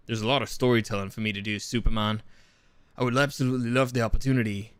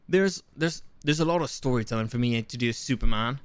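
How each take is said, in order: First: Put-on British accent, pitched lower; Henry Cavill. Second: Shaky attempt at a British accent; badly faked British actor. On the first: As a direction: settle into a deeper mock-British voice. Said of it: "like, more like". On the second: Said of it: "Should I do the British accent?".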